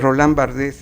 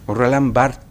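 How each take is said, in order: First: The surname is sounded out as it is written. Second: The surname is said with its final letters silent. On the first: The speaker calls it wrong. "Se escribe Barthes" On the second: The speaker calls it right. "esa es la pronunciación correcta"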